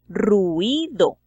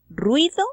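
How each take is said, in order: First: The vowels are split into three syllables. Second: The vowels are joined into two syllables. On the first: "teniendo entonces una palabra de tres sílabas" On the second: "en lugar de decir"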